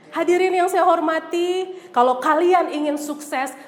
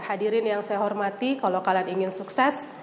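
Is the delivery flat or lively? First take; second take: lively; flat. First: It is said with lively, varied intonation and tempo. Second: It is said flatly with little pitch variation. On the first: The listeners feel inspired. The speaker calls it right. "menggunakan seni berbicara dengan artikulasi yang baik, intonasi yang baik, dan juga tempo yang baik" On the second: The listeners are not moved. The speaker calls it wrong. "Kalau lempeng saja"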